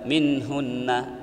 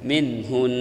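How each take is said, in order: First: The word ends with a final vowel after n. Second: The word ends on a held nasal n. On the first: The speaker calls it wrong. "Bukan minhunna, bukan gitu" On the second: The speaker calls it right. "Minhun, tetap"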